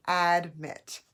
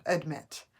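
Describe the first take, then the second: First: "admit" with a clear short a; open, unreduced first vowel in "admit"; full vowel sound. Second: "Admit" run together with a schwa first; first vowel of "Admit" weakened to uh; quick reduced vowel. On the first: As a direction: say "admit" firmly, sounding the a as in add. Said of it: "So, but it's admit". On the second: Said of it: "when you say it quickly, you might not hear the vowel sound". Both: Shown as a demonstration.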